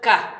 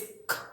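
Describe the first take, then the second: First: The consonant has a vowel added after it. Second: The sound is a bare consonant. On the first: The speaker calls it wrong. "and not ka" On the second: The speaker calls it right. "it's k"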